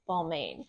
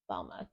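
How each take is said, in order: First: The final 'ain' sound is fully pronounced. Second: The final 'ain' sound is left silent. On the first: The speaker calls it wrong. "my brain wants to say Balmain, but I know it's wrong" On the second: The speaker calls it right. "the ain is silent, so it's pronounced Balma"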